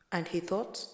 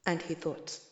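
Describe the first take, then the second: No difference in how they are said.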